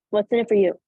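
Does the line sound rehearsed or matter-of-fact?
matter-of-fact. It sounds plain and factual.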